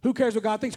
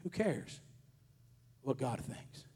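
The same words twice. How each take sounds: First: Who cares what God thinks asked as a real question, rising at the end; honest question with a rise; sincere question. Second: "Who cares what God thinks?" dropped low and soft, brushed off; scornful brush-off, low and quiet; dismissive. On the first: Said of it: "could actually read it one of two ways". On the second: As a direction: shrug it off, falling and quiet. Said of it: "Or you could say". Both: Shown as a demonstration.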